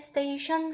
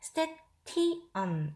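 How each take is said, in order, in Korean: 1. 끝의 t는 보통의 t 소리가 아닙니다. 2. 끝의 t는 보통의 t 소리입니다. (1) "성인은 station 하고 읽을 수 있지만" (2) "파닉스의 발음대로 읽는다면 station 이런 식으로"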